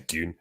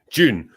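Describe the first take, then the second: First: Dune with a "dy" opening, meant as June; slipped pronunciation. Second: June with a clear "j" opening; corrected pronunciation. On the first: Speaker stumbling over the month, slipped pronunciation. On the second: Speaker fixing a slip on the month, corrected pronunciation. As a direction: correct it to June, a little louder and firm on the "j". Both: Real, not acted. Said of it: "Uh, sorry, Dune. June".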